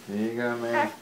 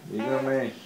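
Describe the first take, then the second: No difference in how they are said.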